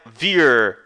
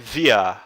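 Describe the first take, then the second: First: The word ends with a clearly pronounced R. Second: The word ends in a vowel with faint R. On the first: The speaker calls it wrong. "não é vir" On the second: The speaker calls it right. "é via. Você pode até imaginar que tem um R bem suave aqui no final"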